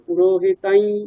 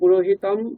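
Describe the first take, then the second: First: The word ends in a nasalized vowel, no m. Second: The word ends in a clear separate m sound. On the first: "অনুস্বারগুলো অনুনাসিক ইকার হয়ে যায়" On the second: "পুরোহিতম এরকম করে আলাদা করে বললেও সঠিক"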